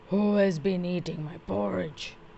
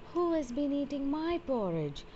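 First: It is said in a deep, gruff voice. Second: It is said in a medium voice.

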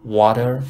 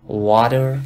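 First: The t is flapped like a soft d. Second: The same.

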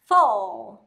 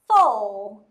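Both takes have the same delivery.

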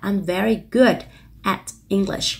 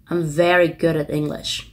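First: Each word is said separately, slowly. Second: The words are linked smoothly together.

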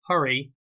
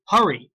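First: The word is said in a calm, flat tone. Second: The word is said in a loud, urgent tone. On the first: It is an ordinary statement ending in a comma. "Instead of saying hurry" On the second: It is an exclamation. "I have to say hurry ... My tone has to change"

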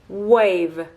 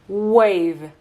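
Both takes have the same delivery.

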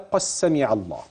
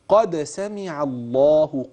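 First: The d sound is merged into the s. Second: The d sound is clearly pronounced before s. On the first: The speaker calls it wrong. "يعني ما تقولش عفوا كده" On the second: The speaker calls it right. "فما تدغمش وما تبدلش حرف بحرف"

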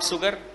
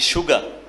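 First: The word begins with an s sound. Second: The word begins with a sh sound. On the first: The speaker calls it wrong. "Not sugar" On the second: The speaker calls it right. "we pronounce S-U as shoe"

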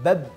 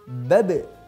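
First: The final b is held without any release. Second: The final b is released with a strong bounce. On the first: The speaker calls it wrong. "ini contoh yang keliru" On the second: The speaker calls it right. "Yang tepat adalah babe. ... kita pantulkan dengan cepat dan kuat"

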